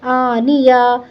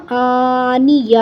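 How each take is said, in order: First: "آنیہ" ending on an open ya; joined spelling-out. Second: "آنیہ" slow, closing on a breathed h; waqf with ha. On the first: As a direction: join the syllables of "آنیہ", leaving the last vowel open. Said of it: "یا زبر یا". ("آنیہ" آخر میں کھلا یا) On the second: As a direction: stop on "آنیہ" with an audible h in place of the ta. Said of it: "ہا کی آواز نکال دی". ("آنیہ" کے آخر میں ہا کی آواز) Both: Shown as a demonstration.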